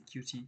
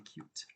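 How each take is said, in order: First: It is said with two syllables. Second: It is said with one syllable. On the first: The speaker calls it wrong. "Do not say cutie" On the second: The speaker calls it right. "say cute"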